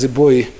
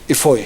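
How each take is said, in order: First: The middle consonant is a B sound. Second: The middle consonant is an F sound. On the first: The speaker calls it wrong. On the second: The speaker calls it right.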